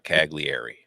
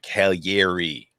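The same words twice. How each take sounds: First: The middle consonant is a hard G. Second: The middle consonant sounds like a Y. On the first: The speaker calls it wrong. "not Cagliari" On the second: The speaker calls it right. "G L I is ye. Like Cagliari"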